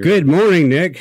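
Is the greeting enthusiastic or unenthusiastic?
enthusiastic. The greeting sounds lively and enthusiastic.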